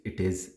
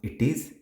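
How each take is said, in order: First: It is said as two full words. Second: It is said as two full words.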